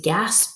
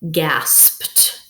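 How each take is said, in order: First: The ending is not said as a t sound. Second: The ending is said as a t sound. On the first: The speaker calls it wrong. "I know I don't say gasped. That doesn't make sense" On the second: The speaker calls it right. "it makes the t sound"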